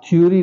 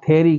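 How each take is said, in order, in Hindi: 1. यह 'thyo-ree' जैसा सुनाई देता है, 'yo' ग्लाइड के साथ। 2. यह 'theh-ree' जैसा सुनाई देता है, बिना ग्लाइड के। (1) "आप थ्योरी नहीं कहेंगे" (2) "आप थेरी कहेंगे"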